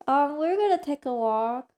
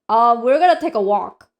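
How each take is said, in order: First: It sounds nice and gentle. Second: It sounds slightly annoyed and curt.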